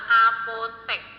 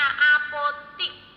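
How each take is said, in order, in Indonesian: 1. Suku kata terakhir memiliki vokal 'e'. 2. Suku kata terakhir memiliki vokal 'i'. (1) "Yang benar kata bakunya adalah apotek, pakai E" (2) "itu merupakan kata yang tidak baku"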